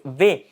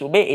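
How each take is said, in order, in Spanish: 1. La consonante suena entre una B y una F. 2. La consonante suena como una B. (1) "es como un sonido entre la B y la F" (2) "este no es V"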